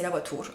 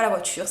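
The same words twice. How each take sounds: First: "voiture" said as "voitoure"; "voiture" with oo in the last syllable; Italian-accent mispronunciation. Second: Said in the usual way. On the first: Shown as a demonstration. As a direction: turn the French u of "voiture" into an Italian oo. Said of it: "je parlais avec l'accent de mes grands-parents". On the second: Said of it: "Je disais pas la voiture".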